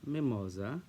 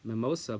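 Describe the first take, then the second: First: The name is said with a Hungarian pronunciation. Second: The name is said with an English pronunciation. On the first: The speaker calls it right. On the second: The speaker calls it wrong.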